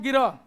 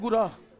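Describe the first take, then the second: First: The word starts with gi, an inserted i vowel. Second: The word starts with gu, a u-like vowel. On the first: This is how speakers from Bihar say it. The speaker calls it wrong. "Bihari कहेंगे इसको" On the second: This is the proper form of the word. The speaker calls it right. "जबकि ये होता क्या है"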